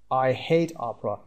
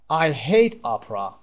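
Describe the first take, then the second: First: Said in the usual way. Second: Slow, leaning hard on "hate"; emphatic model. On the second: Shown as a demonstration. Teacher models dislike for students, stressing hate. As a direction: hit "hate" for the learners.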